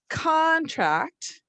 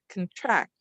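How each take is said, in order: First: The stress is on the first syllable. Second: The stress is on the second syllable.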